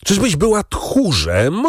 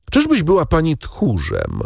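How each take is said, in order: First: Agitated high, drawn-out question, rising at the end; rising agitation. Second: High-pitched contemptuous challenge; scornful question. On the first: Husband pressing his wife on her cowardice, increasingly agitated. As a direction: press the challenge slowly, pitch climbing high. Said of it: "ciągnął Villefort z rosnącym wzburzeniem". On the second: Husband asking whether his wife is a coward, scornfully. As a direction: taunt with scorn at a normal pace. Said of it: "zawołał Villefort z pogardą". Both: A narrator's reading.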